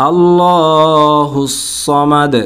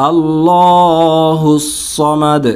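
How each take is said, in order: No difference in how they are said.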